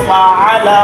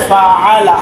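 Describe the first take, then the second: No difference in how they are said.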